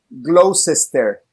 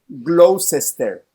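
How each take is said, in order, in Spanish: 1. Cada sílaba escrita se pronuncia completa. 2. Cada sílaba escrita se pronuncia completa.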